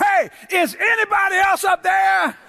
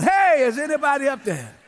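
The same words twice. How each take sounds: First: High-pitched holler for someone else; comic desperate cry, pitched way up; desperate shout. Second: Slightly raised call upward; lightly acted holler; mild cry for help. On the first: Acted. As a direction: yell upward for any other help. Man desperately calls past God's answer. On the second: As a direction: call up from the pit, moderately loud. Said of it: "about that loud".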